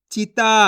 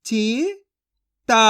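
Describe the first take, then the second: First: Said in the usual way. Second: चिता stretched slowly with a falling end; slow drawn-out sounding. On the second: Shown as a demonstration. Teacher stretching चिता slowly for children to copy. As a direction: draw out चिता slowly, then let it fall. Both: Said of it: "मैं किस तरीके से एक एक अक्षर का उच्चारण करके".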